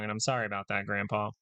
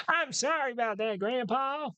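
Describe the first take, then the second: First: Said in the usual way. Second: Put-on high, strained old man voice; creaky grandpa pitched way up. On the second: Shown as a demonstration. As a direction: quaver it out like a frail grandpa. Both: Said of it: "that's the grandpa voice".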